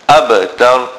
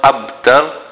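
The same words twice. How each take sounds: First: The b sound is released with a bounce. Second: The b sound is held without a bounce. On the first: The speaker calls it right. "Note the qalqala on ab" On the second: The speaker calls it wrong. "It is not abtar"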